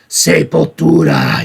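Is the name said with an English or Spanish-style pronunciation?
Spanish-style. The name has a Spanish-style pronunciation. The speaker calls it right. "You had to say it like that"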